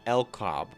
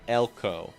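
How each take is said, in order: First: The name ends with a clear B sound. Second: The name ends without any B sound. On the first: "I say your name Elcob" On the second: "Spiridon says your name Elko"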